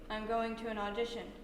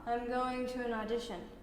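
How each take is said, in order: First: It is said flat, with no expression. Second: It is said smoothly and connected, without breaks. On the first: "We may try a dead face" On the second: "really smooth with the ribbon of thought"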